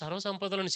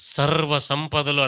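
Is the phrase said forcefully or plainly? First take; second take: plainly; forcefully. First: It is said plainly, without extra force. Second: It is said forcefully, with a deep weighty voice. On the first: The speaker calls it wrong. "సింపుల్గా అనకూడదు" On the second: The speaker calls it right. "అని అనాలి. ఆ బేసు, ఆ glow ఫేస్లో వచ్చేయాలన్నమాట"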